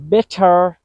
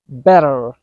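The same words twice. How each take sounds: First: Bitter said as "better" with a hard, crisp T. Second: Better with the T as a quick D; American flap T. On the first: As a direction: give Bitter a true T in the middle. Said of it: "with two different pronunciations". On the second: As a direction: tap the T in better lightly. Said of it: "sound is more accurate". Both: Shown as a demonstration.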